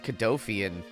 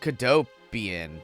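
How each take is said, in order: First: The middle consonant is an f sound. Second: The middle consonant is a p sound. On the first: The speaker calls it wrong. "I was calling it Cadofian" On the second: The speaker calls it right. "this is clearly Cadopian"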